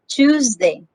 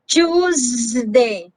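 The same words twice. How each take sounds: First: The z sound has only a slight buzz. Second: The z sound is a long, heavy buzz. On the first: The speaker calls it right. "Just a slight buzzing sound" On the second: The speaker calls it wrong. "It's not very like z, like Tuesday. No, you don't have to say that way"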